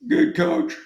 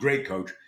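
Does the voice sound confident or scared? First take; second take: scared; confident. First: The voice sounds scared and timid. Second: The voice sounds confident and upbeat.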